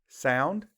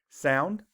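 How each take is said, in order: No difference in how they are said.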